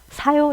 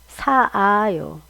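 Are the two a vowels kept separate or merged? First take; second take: merged; separate. First: The two a vowels merge into one. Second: Two separate a vowels are pronounced. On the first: The speaker calls it right. "두 개를 줄이는 방법은 하나를 없다고 생각하는 거예요" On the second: The speaker calls it wrong. "원래 이거대로 하면 이렇게 써야 되는 거죠"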